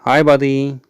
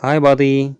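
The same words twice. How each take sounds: The two takes are said the same way.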